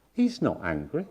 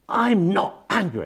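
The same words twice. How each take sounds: First: Said in the usual way. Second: Slow, high, imitated angry yell; angry shouting. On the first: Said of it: "They, of course, said in this particular group". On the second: Patient denying anger to therapist, imitated angry shout. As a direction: mimic an emphatic, drawn-out angry denial. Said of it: "you're still shouting".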